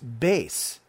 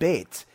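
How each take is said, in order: First: The letter name ends with an s sound. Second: The letter name ends with a t sound. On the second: "instead of bet"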